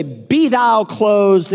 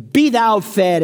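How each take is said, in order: First: Mock pious. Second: Higher mock-holy pronouncement; mock pious. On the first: Preacher mocking a pious man refusing help, slow and solemn. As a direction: intone it like a smug blessing, then shut the door. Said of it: "And you say". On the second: Preacher mocking a pious man refusing food, solemn and smug. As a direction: intone it like a smug blessing. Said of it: "and you say".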